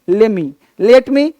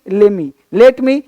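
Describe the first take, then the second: The two takes are said the same way.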